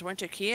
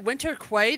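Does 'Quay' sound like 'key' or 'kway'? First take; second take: key; kway. First: The last word is said like 'key'. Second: The last word is said like 'kway'. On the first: The speaker calls it right. "until they finally said it was Winter Key" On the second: The speaker calls it wrong. "I called it Winter Quay the entire time"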